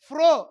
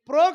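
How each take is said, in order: First: The first consonant is aspirated, with a breath. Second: The first consonant is plain, without a breath. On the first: The speaker calls it right. "ఫ్రో అంటే ఒత్తుంటుంది" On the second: The speaker calls it wrong. "ప్రో కాదు"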